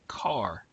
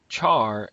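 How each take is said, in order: First: It begins with k and rhymes with far. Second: It begins with ch and rhymes with car. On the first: "as in a vehicle that you drive" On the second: "as in charcoal"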